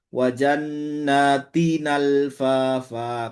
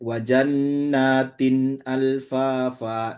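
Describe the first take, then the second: First: The words link smoothly, the glottal catch dropped. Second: A full glottal stop begins the second word. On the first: "kemudian nakal" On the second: "seperti hafs yaitu dibaca dengan tahqiq"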